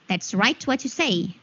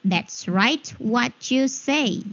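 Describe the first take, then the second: First: Said in the usual way. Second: Slow, word-by-word demo; slow repeat. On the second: Shown as a demonstration. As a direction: draw each word out for learners. Teacher repeats the phrase slowly.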